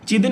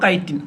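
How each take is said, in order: First: The word begins with a ch sound. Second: The word begins with a k sound.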